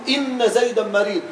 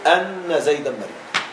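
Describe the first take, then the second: First: The first word begins with an i vowel. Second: The first word begins with an a vowel. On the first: The speaker calls it right. "ففي الابتداء يجب الكسر" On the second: The speaker calls it wrong. "لا يجوز في الابتداء أن تفتح"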